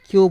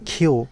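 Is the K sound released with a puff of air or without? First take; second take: without; with. First: The K sound has no puff of air. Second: The K sound has a clear puff of air. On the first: The speaker calls it wrong. "কিউ বলি, কিউ হবে না" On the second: The speaker calls it right. "খর মতো উচ্চারণ করব"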